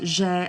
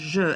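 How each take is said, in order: First: The vowel is a clear 'ay' sound. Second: The vowel is a weak 'uh' sound. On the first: This marks the past tense. The speaker calls it right. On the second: The past tense cannot be heard. The speaker calls it wrong.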